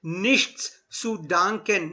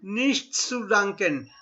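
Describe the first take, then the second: First: Slow Nichts zu danken, every sound; careful pronunciation demo; slow model phrase. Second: Slow Nichts zu danken; deliberate demo; slow model phrase. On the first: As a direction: spell it out for the class. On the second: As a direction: repeat it carefully for learners. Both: Shown as a demonstration. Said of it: "Try and pronounce every alphabet".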